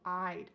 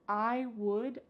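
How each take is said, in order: First: It is said as one contracted syllable. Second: It is said as two full words. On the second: "The word would becomes I'd"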